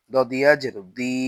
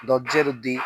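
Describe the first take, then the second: First: দি with a long i; দি held long; stretched vowel. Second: দি with a short i; no stretch. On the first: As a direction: draw out the vowel of দি. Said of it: "তখন জেরে টান দিব". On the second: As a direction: cut the vowel of দি short. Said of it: "শুধু জের থাকলে টান দিব না". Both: Shown as a demonstration.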